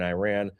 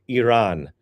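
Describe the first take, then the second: First: The name is said with an American pronunciation. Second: The name is said without an American pronunciation. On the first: The speaker calls it wrong. "That was so American" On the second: The speaker calls it right. "That is the proper way to say it"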